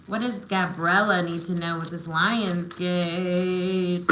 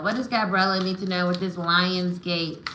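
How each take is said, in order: First: Slow, drawn-out invocation; intoned card-reader question. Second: Said in the usual way. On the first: Real, not acted. Reader asking spirit for Gabriella's message, slowly intoned. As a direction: stretch the question out as if summoning the answer. Repeats question while drawing cards.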